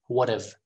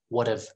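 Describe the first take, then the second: No difference in how they are said.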